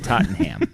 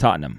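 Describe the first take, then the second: First: The final syllable 'ham' is said fully and hard. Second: The final syllable is reduced, with no h sound. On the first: This is how one particular person says it. "he hits the ham pretty hard" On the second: This is how the fans say it. "Every Tottenham fan I've ever seen or heard says"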